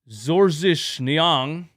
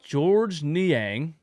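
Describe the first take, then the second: First: The name is pronounced with a foreign pronunciation. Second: The name is pronounced the usual English way.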